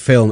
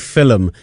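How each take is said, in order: First: It is said in a standard, unaccented way. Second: It is said in the co-host's regional accent. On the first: "instead of film" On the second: "every time you say film"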